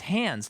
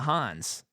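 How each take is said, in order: First: The vowel sounds like the one in 'hands'. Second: The vowel is an open 'ahh' sound. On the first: "[name] called him [name]. So I think his name is [name]"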